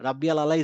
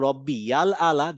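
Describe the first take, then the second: First: The 'ain' throat sound before 'ala' is missing. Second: The 'ain' throat sound before 'ala' is pronounced. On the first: The speaker calls it wrong. "আমরা আইনের উচ্চারণ করছি না ... রাব্বিয়াল আলা is wrong" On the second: The speaker calls it right. "That is correct"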